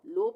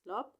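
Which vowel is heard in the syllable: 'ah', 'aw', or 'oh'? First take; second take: oh; aw. First: The syllable has an 'oh' vowel. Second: The syllable has an 'aw' vowel. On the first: The speaker calls it wrong. "लोप नहीं पढ़ेंगे" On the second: The speaker calls it right. "इसको पढ़ेंगे लॉप लॉप"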